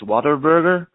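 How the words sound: It is said in an American accent, heavy R's.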